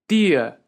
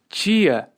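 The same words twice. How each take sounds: First: The word begins with a plain 't' sound. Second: The word begins with a 'ch' sound. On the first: This is how it is said in the north and northeast. "E já no norte e nordeste" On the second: This is how it is said in the south and southeast. "no sul e sudeste nós temos tia, tia, esse som de tch"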